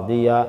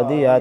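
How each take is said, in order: Both takes have the same delivery.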